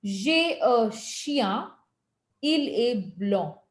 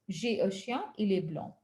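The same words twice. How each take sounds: First: "J'ai un chien, il est blanc" said very slowly, each sound clear; slow model pronunciation. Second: Said in the usual way. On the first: Shown as a demonstration. Teacher slowly models clear French pronunciation. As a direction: stretch out "J'ai un chien" for learners. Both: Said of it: "get your pronunciations clear".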